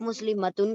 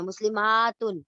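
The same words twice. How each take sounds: First: Said in the usual way. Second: مسلماتن with a drawn-out aa before تن; stretched long aa. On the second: Shown as a demonstration. Teacher stretches the aa of مسلماتن to show the plural. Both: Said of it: "لیکن آپ اس کو کھینچ دیتے ہیں".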